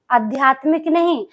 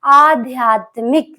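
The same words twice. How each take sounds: First: आध्यात्मिक said quickly as adiyatmik, the common mistake; wrong pronunciation. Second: Slow, careful आध्यात्मिक as aadhyaatmik; teacher's correct model of आध्यात्मिक; correct pronunciation. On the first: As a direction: say आध्यात्मिक the sloppy everyday way. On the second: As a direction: draw out आध्यात्मिक syllable by syllable. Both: Shown as a demonstration.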